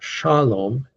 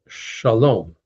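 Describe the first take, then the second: First: The stress is on the first syllable. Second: The stress is on the last syllable. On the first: The speaker calls it wrong. "It's not shalom" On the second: The speaker calls it right. "accented on the last syllable"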